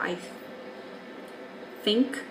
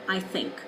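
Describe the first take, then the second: First: The word begins with an f sound. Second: The word begins with a th sound. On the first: The speaker calls it wrong. "or an F" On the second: The speaker calls it right. "rather than I think"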